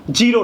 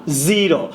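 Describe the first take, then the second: First: "জিরো" with a j, jee-ro; wrong pronunciation shown. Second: "জিরো" with a buzzing z, zee-ro; correct pronunciation. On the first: Teacher rejects the mistake, saying JEE-ro. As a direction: start জিরো on j instead of z. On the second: Teacher corrects the sound, saying ZEE-ro. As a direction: start জিরো on a held z. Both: Shown as a demonstration. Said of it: "জিরো না".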